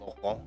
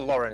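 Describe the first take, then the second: First: The name is said with a French accent. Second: The name is said with an English accent.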